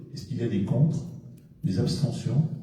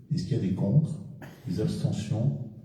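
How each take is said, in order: Both takes have the same delivery.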